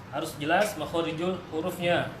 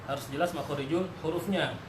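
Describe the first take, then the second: No difference in how they are said.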